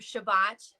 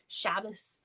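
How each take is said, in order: First: It ends in a t sound, Modern Hebrew style. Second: It ends in an s sound, Ashkenazi style.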